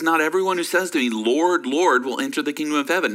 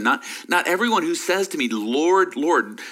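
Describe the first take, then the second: First: Said in the usual way. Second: Both Lords hit hard and falling; emphatic repetition. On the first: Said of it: "He says". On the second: Shown as a demonstration. Pastor stressing the doubled Lord for his congregation, with a firm fall. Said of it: "The repeating of that phrase is for emphasis".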